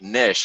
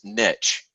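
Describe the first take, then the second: First: The word rhymes with fish. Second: The word rhymes with stitch. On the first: "the other way to pronounce it is like niche, like a fish" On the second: "my personal favorite is niche, kind of like stitch"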